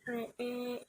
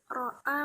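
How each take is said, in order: First: The vowels lean toward an 'e' sound. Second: The vowels are said as open 'a' sounds.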